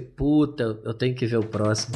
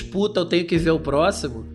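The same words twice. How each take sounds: First: It sounds reluctant and fed up. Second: It sounds eager and excited. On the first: The viewer feels obliged to keep watching. "só que a entonação foi diferente" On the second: The viewer can't wait to watch the next episode. "teve vários momentos"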